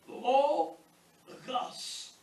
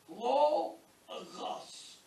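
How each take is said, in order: No difference in how they are said.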